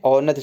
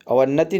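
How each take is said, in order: First: अवन्नति opened with au, no v; correct form au-nati. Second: अवन्नति with a v and double n; wrong form a-van-nati. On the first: Teacher giving the right form, अवन्नति as au-nati. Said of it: "अवन्नति शुद्ध है". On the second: Teacher rejecting the mistake, अवन्नति as a-van-nati. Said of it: "अवन्नति नहीं है". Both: Shown as a demonstration.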